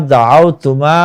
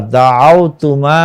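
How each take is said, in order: First: Said in the usual way. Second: দাআওতুমা said slowly, each syllable drawn out; slow careful take. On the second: Shown as a demonstration. Teacher modelling দাআওতুমা slowly for students. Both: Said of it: "মনোযোগ সহকারে ভালোভাবে পড়ব".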